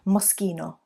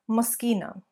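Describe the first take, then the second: First: It has a stronger Italian accent. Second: It has only a light Italian accent.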